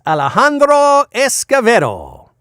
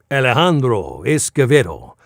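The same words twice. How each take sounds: First: Rolling the name in a hammed Spanish accent. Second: the name in a lighter Spanish accent; toned-down Spanish accent. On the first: Voice actor relishes a guest name, mock Spanish accent. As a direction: savor the name with a Spanish accent. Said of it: "not do my really bad Spanish accent". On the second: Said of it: "I had to really pull back". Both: Shown as a demonstration.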